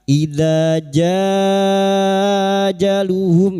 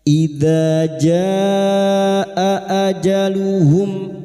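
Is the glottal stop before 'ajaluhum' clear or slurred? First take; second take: slurred; clear. First: The glottal stop is slurred into the vowel. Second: The glottal stop before ajaluhum is clearly sounded. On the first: The speaker calls it wrong. "jangan terseret ya, jangan dibaca" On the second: The speaker calls it right. "membunyikan huruf hamzah ya"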